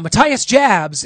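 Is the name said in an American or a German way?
American. The name is said with an American pronunciation.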